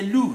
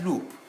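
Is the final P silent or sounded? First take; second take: silent; sounded. First: The final P is not pronounced. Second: The final P is pronounced. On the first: The speaker calls it right. "The silent form of letter P is at the end of words" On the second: The speaker calls it wrong.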